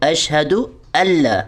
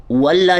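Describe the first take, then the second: First: اشہدو اللہ with the hamza joined to the lam, no w; correct joining. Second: واللہ with an added و sound; wrong waw. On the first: Teacher modelling the right linking. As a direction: join straight into اللہ. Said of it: "حمزہ لام زبر ال". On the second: Teacher showing the mistake. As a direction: say واللہ with an extra w. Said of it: "واللہ نہیں پڑھنا". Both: Shown as a demonstration.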